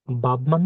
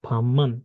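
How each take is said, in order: First: বাবমান with a plain b before man; the spelled-out way: বাবমান; wrong reading. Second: ফাম্মান with a doubled m; correct reading. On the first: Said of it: "বাবমান না". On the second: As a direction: say ফাম্মান, b turned to m. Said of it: "এটা হচ্ছে". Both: Shown as a demonstration.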